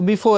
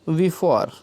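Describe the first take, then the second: First: The second vowel is short and clipped. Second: The second vowel is long and drawn out. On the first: This is the everyday local way of saying it. The speaker calls it wrong. "अपने हिसाब से पढ़ते हैं सुविधा के लिए, तो बिफोर इस तरह से पढ़ते हैं" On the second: This is the standard dictionary way of saying it. The speaker calls it right. "इसका शुद्ध उच्चारण क्या है? वी फॉर"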